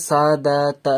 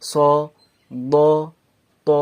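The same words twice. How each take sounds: First: "সা, দা, তা" with a drawn open front a; thin, light letters. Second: "স, ব, ত" heavy, with a rounded aw vowel; full, rounded letters. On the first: Teacher shows the contrast to avoid, thin "সা, দা, তা". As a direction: spread the lips: "saa, daa, taa", light. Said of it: "আমি বারোভাবে বলছি না". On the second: Teacher demonstrates heavy letters, rounded "স, ব, ত". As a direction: round the mouth: "saw, daw, taw". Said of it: "আমি তাকে পুরভাবে বলছি". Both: Shown as a demonstration.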